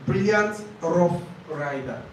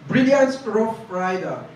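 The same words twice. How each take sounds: First: Brilliant rough rider read slowly, like a listening test; teacher reading a test example slowly to students; slow dictation read. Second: Said in the usual way. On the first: Shown as a demonstration. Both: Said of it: "when you hear something like".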